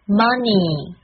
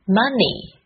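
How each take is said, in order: First: "money" as MAH-neee, open and drawn out; mispronounced money. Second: "Money" as MUH-nee, short first vowel, falling; correct money. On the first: Teacher warning against a mistake, "money" opened up and dragged. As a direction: stretch "money" with a too-open AH. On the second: Teacher modelling the word for learners, "Money" with short UH. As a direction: model "Money" compactly with a tight UH. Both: Shown as a demonstration. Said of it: "不要把它念成money".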